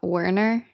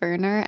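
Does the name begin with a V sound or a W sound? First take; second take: W sound; V sound. First: The name begins with a W sound. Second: The name begins with a V sound. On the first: The speaker calls it wrong. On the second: The speaker calls it right.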